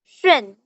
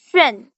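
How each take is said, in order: First: The pitch falls sharply from high to low. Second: The pitch falls sharply from high to low.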